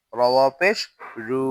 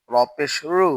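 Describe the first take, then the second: First: রু with a long u; রু held long; stretched vowel. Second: রু with a short u; no stretch. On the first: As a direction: draw out the vowel of রু. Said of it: "ওয়াও থাকলে টান দিব". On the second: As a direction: cut the vowel of রু short. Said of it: "আমরা টান দিব না". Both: Shown as a demonstration.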